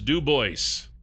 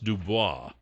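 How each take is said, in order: First: The name is said with an American pronunciation. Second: The name is said with a French pronunciation. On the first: "If you're in America, it's Dubois" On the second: "if you're in France, it's pronounced Dubois"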